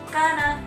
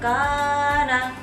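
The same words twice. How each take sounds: First: The first vowel is cut shorter than two counts. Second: The first vowel is stretched beyond two counts. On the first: "dibaca pendek misalkan kana juga tidak boleh karena itu kurang dari dua harokat" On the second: "Tidak boleh karena itu lebih dari dua harokat"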